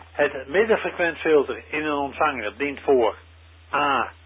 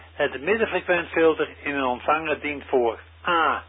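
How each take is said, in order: The two takes are said the same way.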